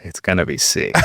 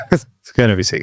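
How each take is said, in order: First: Said in the usual way. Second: Said through a laugh. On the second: Real, not acted. Repeats it laughing.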